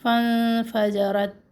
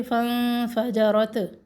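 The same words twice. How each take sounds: First: फन फजरत with a hard, breathless ता; too harsh a फजरत; hard wrong way. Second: फन फजरत blended without the breath of ता; a run-on फजरत; run together wrongly. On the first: Teacher shows students the harsh wrong reading, slow. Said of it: "अगर इसको हम सख्ती से पढ़ते हैं". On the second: Teacher shows another wrong reading to avoid. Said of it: "ऐसे भी नहीं पढ़ना". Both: Shown as a demonstration.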